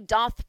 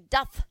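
First: The vowel rhymes with the word moth. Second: The vowel matches the vowel in does. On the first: The speaker calls it wrong. "It is not she doth protest too much" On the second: The speaker calls it right. "as she doth"

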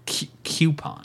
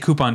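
First: The word begins with a 'cue' sound. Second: The word begins with a plain 'coo' sound. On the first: "Like a Cupid doll" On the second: "I say coupon too"

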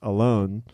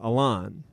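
First: The last syllable sounds like 'lone'. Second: The last syllable sounds like 'lawn'. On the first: The name sounds like the word for being by oneself. The speaker calls it wrong. "when everybody in America would say that, it was pronounced Alone" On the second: The name no longer sounds like being by oneself. The speaker calls it right. "like a lawnmower"

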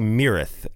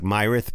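First: The name is pronounced differently from its spelling. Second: The name is pronounced the way it is spelled. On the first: This is how the band members say it. The speaker calls it right. "but I believe they say Myrath" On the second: This is how the name looks in writing. The speaker calls it wrong. "It looks like Myrath"

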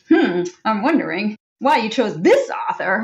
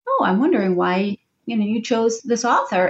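First: It sounds judgmental and disapproving. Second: It sounds open and genuinely curious.

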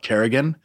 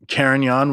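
First: It is said like the surname Kerrigan. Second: It is said like the wine name Carignan. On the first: "out there they call it Kerrigan" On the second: "I'm getting Carignan"

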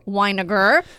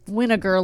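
First: The name does not sound like vinegar. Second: The name sounds like the word vinegar. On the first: The speaker calls it right. "I said it right" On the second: The speaker calls it wrong. "like vinegar"

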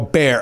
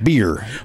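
First: The vowel is a Chicago-style 'air' sound. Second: The vowel is the standard 'ee' sound. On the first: "usually I go bear, like I do that Chicago" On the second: "did I say it right?"

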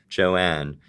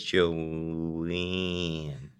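First: The vowel is open, with the jaw dropped. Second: The vowel is closed, nasal, and near 'eh'. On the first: "doing my non-regional, like, nearly broadcast speech" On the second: "she says Joanne. So she's not opening her mouth at all"

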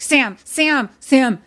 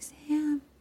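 First: The name is said in a harsh, monstrous voice. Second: The name is said in a soft, gentle voice. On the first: The caller is menacing and threatening. "like monster voice" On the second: The caller pretends to be caring and kind. "But then in mom voice"

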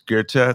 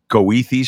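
First: The name is said the German way. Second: The name is said the local Chicago way. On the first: This is the original German name. "and it's German. It's Goethe" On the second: This is how locals say the street name. "Chicagoans call Goethe Street"

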